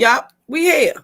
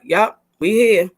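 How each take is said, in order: First: Upbeat "Yup, we here" with a lift on here; catchphrase. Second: Drawn-out "Yup, we here", settled and steady; slow catchphrase. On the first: Host saying her catchphrase to the group, upbeat and light. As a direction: toss off "we here" like a motto. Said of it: "As we say". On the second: Host repeating her go-to line to the team, slow and steady. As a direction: say "we here" slowly, like a mantra. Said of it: "We here is my way". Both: Shown as a demonstration.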